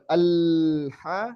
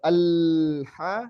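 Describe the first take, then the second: First: The l sound flows on at length. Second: The same.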